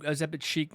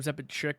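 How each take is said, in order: First: The last word sounds like 'sheek'. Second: The last word sounds like 'chick'. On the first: The speaker calls it right. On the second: The speaker calls it wrong. "not Ozepid chick, whatever I said"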